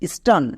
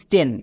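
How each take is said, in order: First: The vowel is an open 'ah' sound. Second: The vowel is a mid 'eh' sound. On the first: The speaker calls it right. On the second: The speaker calls it wrong. "Not স্টেন"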